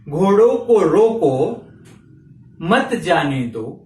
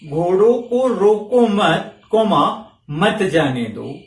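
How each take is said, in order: First: There is a pause right after 'roko'. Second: There is a pause right after 'mat'. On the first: "घोड़ों को रोको, comma मत जाने दो" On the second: "घोड़ों को घोड़ों को रोको मत, कॉमा"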